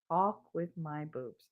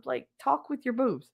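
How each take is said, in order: First: Soft, slow flat repeat; deadpan echo. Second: Said in the usual way. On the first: Retold or imitated. Wife repeats husband's words back, deadpan and soft. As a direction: echo his words back, unimpressed and quiet.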